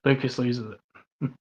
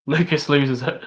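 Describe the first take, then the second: First: Slow, much softer, hushed title voice; deadpan slow caption read; mock dramatic title. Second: Said in the usual way. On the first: Shown as a demonstration. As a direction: drop it like a dramatic trailer tag.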